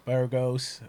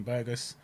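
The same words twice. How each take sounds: First: Burgos as BUR-goes, rolled r and long O; Burgos trying the Spanish way. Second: Burgos as BUR-gus, short unstressed second syllable; Burgos said the English way. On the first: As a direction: say Burgos with the r sounded and a long O at the end. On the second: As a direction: say Burgos like BER-guss. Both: Shown as a demonstration. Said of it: "I don't know how to pronounce his name".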